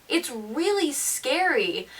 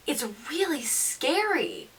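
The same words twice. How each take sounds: The two takes are said the same way.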